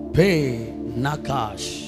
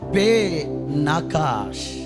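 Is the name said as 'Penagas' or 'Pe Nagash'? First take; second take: Pe Nagash; Pe Nagash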